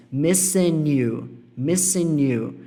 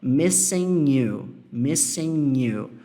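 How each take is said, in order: First: "missing you" with the N run into "you"; linked missing you. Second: "missing you" with a clear break between the words; separated missing you. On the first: Teacher showing the casual linked "missing you". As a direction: link the N straight into "you", like "missin-nyou". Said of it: "Eu conecto o N no you". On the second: Teacher showing the unlinked "missing you". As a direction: say "missing" and "you" apart, no linking. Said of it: "se eu fosse falar missing you, eu ia conectar dessa forma". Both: Shown as a demonstration.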